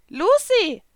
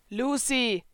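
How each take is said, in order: First: Much higher, louder cat voice calling; a squeaky little cat calling her name; Happy calling Lucy. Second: Lightly voiced boy calling a name; Natsu calling Lucy. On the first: The little blue cat calling Lucy, high and loud. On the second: Natsu calling Lucy as she eats apples. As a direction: call her name, a touch raised. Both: A narrator's reading.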